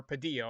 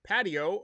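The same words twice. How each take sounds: First: "Padillo" stressed on the middle syllable; corrected pronunciation. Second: "Patio" stressed on the first syllable; misplaced stress. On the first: Host correcting a player's name in the lineup, "Padillo" with middle stress. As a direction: tentatively correct it to pa-DEE-o, "Padillo". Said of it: "I guess is how you pronounce that". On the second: Host misreading a player's name in the lineup, misplaced stress on "Patio". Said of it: "I put the emphasis on the wrong". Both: Real, not acted.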